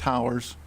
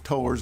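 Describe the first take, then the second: First: The first syllable rhymes with 'cow'. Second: The first syllable rhymes with 'toe'. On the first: Tall structures. The speaker calls it wrong. "not towers. Strange word" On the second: People who tow vehicles. The speaker calls it right. "It says towers"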